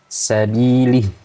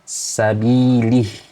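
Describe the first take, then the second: First: The kasrah vowel is a clear 'ee' sound. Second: The kasrah vowel is a clear 'ee' sound.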